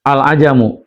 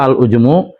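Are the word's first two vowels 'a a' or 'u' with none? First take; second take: a a; u, none. First: Both of the first two consonants take the vowel a. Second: First vowel is u; the second consonant has no vowel.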